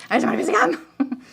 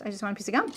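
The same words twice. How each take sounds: First: Higher, playful burst of exasperation; hammed-up frustration over a small thing; mock angry. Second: Said in the usual way. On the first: Woman griping about wanting gum, mock angry.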